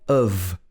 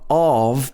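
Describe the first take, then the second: First: The vowel is a reduced schwa. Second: The vowel is a full vowel. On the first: The speaker calls it right. "but of" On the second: The speaker calls it wrong. "of is not of"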